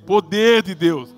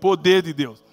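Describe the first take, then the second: First: It is said louder and more forcefully. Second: It is said at normal loudness.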